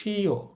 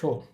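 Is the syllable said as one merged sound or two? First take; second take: two; one. First: It is said as two separate sounds, shi-yo. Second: It is said as one merged sound, sho. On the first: The speaker calls it wrong. "হওয়ার কথা ছিল শিও, কিন্তু শিও হবে না" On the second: The speaker calls it right. "এটা হবে শো"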